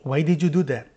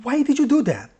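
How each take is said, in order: First: Plain, genuinely asking "Why did you do that?"; sincere question. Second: Much higher, reproachful "Why did you do that?"; rhetorical question. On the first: Teacher demos a true question in English. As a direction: ask because you want the reason. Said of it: "참 의문문". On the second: Teacher shows learners using tone, sounding reproachful. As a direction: say it as blame, not a question. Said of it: "빈 의문문". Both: Shown as a demonstration.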